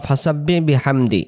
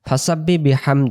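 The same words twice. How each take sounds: The two takes are said the same way.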